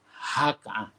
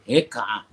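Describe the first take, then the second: First: The first syllable has an open 'a' vowel. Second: The first syllable has an 'e' vowel. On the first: The speaker calls it right. "dibaca dengan baris atas pada huruf ha" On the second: The speaker calls it wrong. "jangan dibaca heka'ah"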